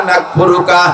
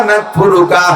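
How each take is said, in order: The two takes are said the same way.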